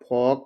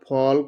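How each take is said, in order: First: The L sound is silent in the word. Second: The L sound is pronounced in the word. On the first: The speaker calls it right. "इसका pronunciation है" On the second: The speaker calls it wrong. "नहीं पढ़ेंगे"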